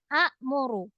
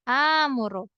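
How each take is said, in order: First: A glottal stop comes after the first vowel. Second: The first vowel is long with no stop. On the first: The speaker calls it wrong. "Harusnya a'muru. Tapi a'muru itu nggak bisa dibaca a'muru" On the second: The speaker calls it right. "jadinya menjadi amuru"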